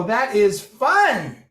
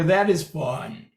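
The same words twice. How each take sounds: First: Rising start pitch. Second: Low, slow and flat demo; low starting pitch. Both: Shown as a demonstration. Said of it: "So you can go".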